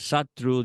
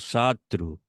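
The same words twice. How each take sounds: First: The 'a' vowel is short. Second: The 'a' vowel is held longer. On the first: "en vez de decir Satru" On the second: "Solamente prolongó un poquito la A, la hizo más larga"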